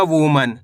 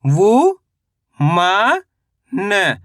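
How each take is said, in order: First: Said in the usual way. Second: वु, मा, न as separate pieces, long and rising on the first two; sound by sound. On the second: Shown as a demonstration. Teacher breaking a word down for learners, syllable by syllable. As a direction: spell out वु ... मा ... न with pauses. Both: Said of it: "तो मिलके बन जाएगा".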